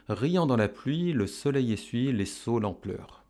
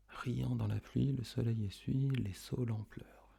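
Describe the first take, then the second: First: Said in the usual way. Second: Hushed, near-whispered verse; soft echo. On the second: Shown as a demonstration. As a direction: murmur the line softly along with the pupils. Soft echo in pupils' turn.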